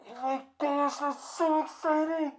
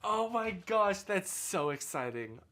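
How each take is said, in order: First: High, loud, thrilled squeal; overjoyed, almost squealing it; gushing excitement. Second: Said in the usual way. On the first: Pretend. Rehearsing a big congratulation.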